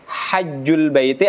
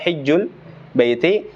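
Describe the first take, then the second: First: The first vowel is an open 'a'. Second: The first vowel is a close 'i'. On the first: The speaker calls it wrong. "bi fathil ha" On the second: The speaker calls it right. "wal kasru arjah"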